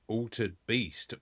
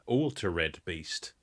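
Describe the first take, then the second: First: Altered is said with two syllables. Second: Altered is said with an extra third syllable.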